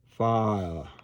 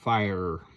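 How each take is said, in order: First: The word is said without the final R. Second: The word is said with the final R. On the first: The speaker calls it right. "drop the R in fire. Uh, you pronounce it fa" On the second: The speaker calls it wrong. "but we don't want fire"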